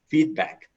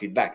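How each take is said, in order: First: The stress is on the first syllable. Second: The stress is on the second syllable. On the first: The speaker calls it right. "The stress is on the first component" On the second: The speaker calls it wrong. "it's not feedback"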